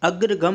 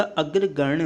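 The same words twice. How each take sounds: First: अग्रगम ending in a plain gam; wrong pronunciation. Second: अग्रगण्य ending in ganya; correct pronunciation. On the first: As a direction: clip अग्रगम short at gam. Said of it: "अग्रगम नहीं होता". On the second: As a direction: finish अग्रगण्य on a retroflex nya. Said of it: "अग्रगण्य होता है". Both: Shown as a demonstration.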